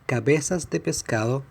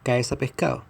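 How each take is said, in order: First: All the consonants are fully pronounced. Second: Several consonants are dropped in fast speech. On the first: "even when you can find it in Chilean media written like this" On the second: "we dropped the B and the S in cabezas, the D in de, and the S and D in pescado"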